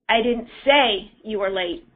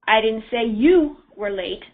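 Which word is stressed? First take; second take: say; you. First: The stress is on "say". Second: The stress is on "you".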